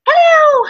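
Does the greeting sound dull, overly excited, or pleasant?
overly excited. The greeting sounds overly excited.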